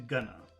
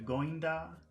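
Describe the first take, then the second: First: The two words merge into one, 'gonna'. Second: The second word becomes a short 'da'. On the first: "shrinks down to gonna"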